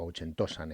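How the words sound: The name is pronounced with Spanish sounds. "pronunciado en el, con la fonética española"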